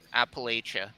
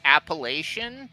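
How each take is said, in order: First: The middle consonant is a ch sound. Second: The middle consonant is an sh sound. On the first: The speaker calls it right. "it's not the the sh sound, it's more of a ch" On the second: The speaker calls it wrong. "I thought it was like"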